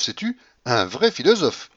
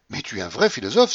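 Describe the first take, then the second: First: Carried-away cry. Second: Said in the usual way. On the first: Acted. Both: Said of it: "s'écria-t-elle, toute transportée".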